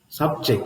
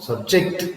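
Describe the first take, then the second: First: The stress is on the first syllable. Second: The stress is on the second syllable. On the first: It is a noun. "It's a noun" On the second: It is a verb. "It's a verb here"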